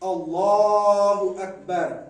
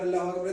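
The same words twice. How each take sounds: First: The phrase is said once at a calm pace. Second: The phrase is said quickly in rapid repetition. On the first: It is the single proper opening takbir. The speaker calls it right. "ये है तकबीरतुल हराम।" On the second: Many takbirs are rushed in one after another. The speaker calls it wrong. "बहुत जल्दी जल्दी आके वो छह सात तकबीर भेजेंगे"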